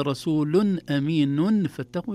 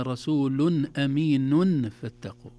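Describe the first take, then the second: First: رسولن أمينن فاتقوا with every nun clearly sounded; wrong clear nun. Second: رسول أمين فاتقوا slowly with the nun of أمين hidden; correct hidden nun. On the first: Teacher shows the wrong clear nun. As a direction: say each nun fully, the mistake. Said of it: "لو قلنا". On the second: Teacher models the right way slowly. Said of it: "ما قلنا". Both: Shown as a demonstration.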